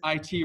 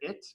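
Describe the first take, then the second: First: It is spelled out as two separate letters. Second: It is said as one short word. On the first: The two letters stand for separate ideas. The speaker calls it right. "you want to make sure that they're always distinct in your pronunciation" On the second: The letters are treated as one linked idea. The speaker calls it wrong. "I never pronounce it it"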